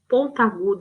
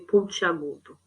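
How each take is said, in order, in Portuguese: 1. Nenhuma vogal liga 'pont' diretamente a 'agudo'. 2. Uma vogal 'ee' liga 'pont' a 'agudo'. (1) "parece que está disputando a acentuação" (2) "fica mais fácil de falar, mais suave"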